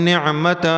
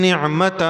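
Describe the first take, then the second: No difference in how they are said.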